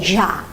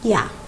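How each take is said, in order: First: It is said with an Argentine accent. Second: It is said with a Spain Spanish accent. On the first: "When it's Argentina, they say" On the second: "in Spain we say the same"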